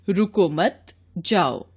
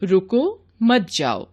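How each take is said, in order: First: "रुको" alone, slow break, then "मत जाओ"; pause after रुको. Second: "रुको मत" together, slow break, then "जाओ"; pause after मत. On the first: ("रुको" के बाद विराम) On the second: ("मत" के बाद विराम) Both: Shown as a demonstration. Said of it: "जैसे".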